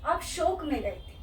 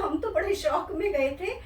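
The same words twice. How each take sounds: First: शोक with a pure, rounded "o" vowel; corrected pronunciation. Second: शौक with a wide, open "au" vowel; mispronounced शोक. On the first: Shown as a demonstration. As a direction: correct it to शोक with a closed "o", not "au". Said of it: "आप शौक में नहीं". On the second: Retold or imitated. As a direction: quote the slip, saying शौक with "au" instead of "o". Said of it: "शौक का तो अर्थ ही कुछ और है".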